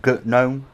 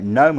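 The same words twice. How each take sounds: First: Gnome said as guh-NOME; sounded G. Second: Gnome said as NOME; silent G. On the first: Streamer comparing two names, gnome with the G sounded. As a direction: put a hard G before gnome, guh-NOME. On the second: Streamer comparing two names, gnome with a silent G. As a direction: say gnome with no G sound. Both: Shown as a demonstration. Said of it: "the thing about gnome and gut gnome".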